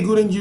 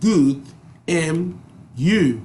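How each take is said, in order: First: The words blend together into one linked chunk. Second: Each word is pronounced clearly and separately. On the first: "really good and you" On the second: "mean good and you"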